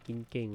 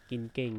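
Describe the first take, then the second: No difference in how they are said.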